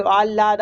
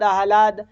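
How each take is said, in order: First: "आह्लाद" as aal-laad, ल doubled; ह dropped back. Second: "आह्लाद" as aah-laad, ह audible; ह before ल. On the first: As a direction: glide straight into ल in "आह्लाद". ("आह्लाद" को आल्लाद जैसा बोलें) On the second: ("आह्लाद" में ह पहले, फिर ल) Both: Shown as a demonstration. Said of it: "वो आगे पीछे होते".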